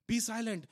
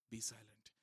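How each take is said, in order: First: Said out louder, commanding; firm be silent. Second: Hushed be silent. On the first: Preacher to congregation, a firm loud command. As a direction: call for silence with authority. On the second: Repeated command, soft then loud. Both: Shown as a demonstration.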